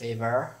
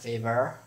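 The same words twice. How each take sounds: First: It is said in an American accent. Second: It is said in an American accent.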